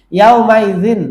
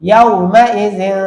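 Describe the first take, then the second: First: Said in the usual way. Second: ইয়াউমাইজিন slowly, last n held as a nasal hum; ইয়াউমাইজিন with a hidden, lingering final n; ikhfa pronunciation. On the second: Shown as a demonstration. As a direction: stretch the ghunnah ending ইয়াউমাইজিন. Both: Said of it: "এখন হবে জিন".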